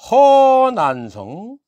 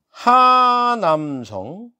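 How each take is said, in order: First: The name has a Chinese-style reading, Heo-nan-seong. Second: The name has a Korean reading, Ha-nam-seong. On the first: The speaker calls it wrong. "걔들이 발음한다고" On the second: The speaker calls it right. "이거를 한글로 쓰면은"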